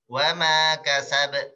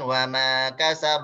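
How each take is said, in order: First: The final echo is thin, toward an e sound. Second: The final echo is thick, toward an o sound. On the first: The speaker calls it right. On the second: The speaker calls it wrong.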